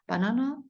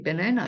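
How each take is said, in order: First: The vowel is an open 'ah' sound. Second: The vowel is an 'eh' sound. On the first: "바나나 네 전혀 이상하지 않아요" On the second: "어떤 때는 에 소리도 나기 때문에 원어민들이 바나나 이렇게"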